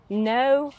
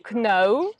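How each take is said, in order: First: The word starts with an n sound. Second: The word starts with a k sound. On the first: The speaker calls it right. "like which we do not pronounce" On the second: The speaker calls it wrong. "some of my students like pronounce them like kno"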